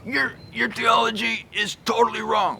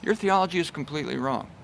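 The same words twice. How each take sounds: First: "Your theology is totally wrong" pitched up, scornful; aggressive rebuke. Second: "Your theology is completely wrong" softer and quicker; meek rebuke. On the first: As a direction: sneer it, higher than usual. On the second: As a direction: say it mildly and quietly. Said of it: "And I'm comparing it to this". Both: Shown as a demonstration.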